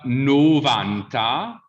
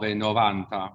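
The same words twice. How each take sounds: First: Slow "novanta" with a closed O. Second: "novanta" with the open O of nove; mistaken open O. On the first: Teacher showing the rule, closed O in "novanta". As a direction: stretch "novanta", closing the first O. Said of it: "the O at the beginning that gets closed". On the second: Teacher showing a common mistake, open O in "novanta". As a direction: carry an open first O into "novanta". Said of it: "but they know it's nove". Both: Shown as a demonstration.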